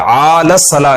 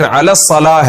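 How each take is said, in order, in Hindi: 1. 'ala' का पहला स्वर खींचकर लंबा है। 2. 'ala' का पहला स्वर छोटा है। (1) "आला सलाह नहीं है" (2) "हय्या फिर अला सलाह है"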